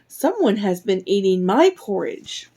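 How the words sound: It is said in a medium-sized voice. A middle-sized character is speaking. "cried out in her medium-sized voice"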